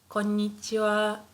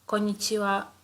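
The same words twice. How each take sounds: First: The double n sound is held long. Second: The n sound is short, one n skipped. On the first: The speaker calls it right. "it's quite important for people to hear this part" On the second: The speaker calls it wrong. "if you skip this n, then it will sound like this"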